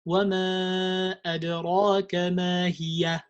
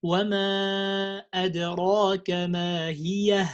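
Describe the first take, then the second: First: هي ending in ya; wrong ya ending. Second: ما هي closing with a clear ha; correct ha ending. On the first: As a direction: say ما هي as hiya-ya. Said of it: "they say". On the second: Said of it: "It's ha". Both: Shown as a demonstration.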